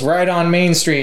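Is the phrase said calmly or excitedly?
calmly. It is said calmly, like plain directions. Turn right when you reach Main Street. "he goes"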